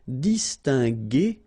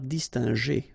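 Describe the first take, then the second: First: The middle consonant is a hard g sound. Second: The middle consonant is a soft j sound. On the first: The speaker calls it right. "we pronounce it distingué" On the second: The speaker calls it wrong. "and not distingé"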